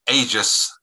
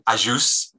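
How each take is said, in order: First: The name is said with an English pronunciation. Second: The name is said with a Maltese pronunciation. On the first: "we've always been Aegis rather than Ajus in England" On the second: "the Maltese pronunciation of names"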